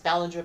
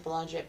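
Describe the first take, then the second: First: The name is said in its standard pronunciation. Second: The name is said with a Canadian pronunciation. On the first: "I know it's Ballinger" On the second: "I say Belanger because, you know, my Canadian accent"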